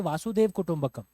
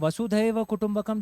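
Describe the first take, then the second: First: The first word is shortened to Vasudev. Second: The first word is said in full as Vasudhaiva. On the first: The speaker calls it wrong. "they'll say Vasudev Kutumbakam because they've read it in the Roman script" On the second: The speaker calls it right. "instead of Vasudhaiva Kutumbakam"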